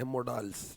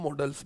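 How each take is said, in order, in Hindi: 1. यह शब्द सावधानी और सटीकता से बोला गया है। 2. यह शब्द सहज, रोज़मर्रा के अंदाज़ में बोला गया है। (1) "इंग्लिश में हम अच्छे से बोले तो मोडाल्स बोलते हैं" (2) "वैसे नॉर्मली हम मॉडल्स बोलते हैं।"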